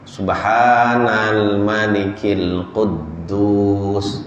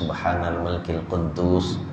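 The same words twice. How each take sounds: First: It is said louder and drawn out longer. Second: It is said at normal volume and length.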